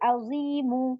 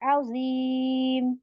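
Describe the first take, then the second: First: The word ends with an added short u vowel. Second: The word ends on a bare m consonant. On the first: The speaker calls it wrong. "मैं इसको एक पेश नहीं दूंगी अजीमू। अजीमू ऐसा नहीं पढ़ना।" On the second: The speaker calls it right. "हम इसको सुकून बनाएंगे"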